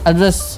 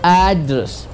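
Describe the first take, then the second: First: The stress is on the second syllable. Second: The stress is on the first syllable. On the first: It means speaking to someone. "रेस पे stress देते" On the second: It means a place where someone lives. "एड पे हमने stress दिया"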